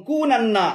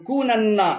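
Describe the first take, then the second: Both takes have the same delivery.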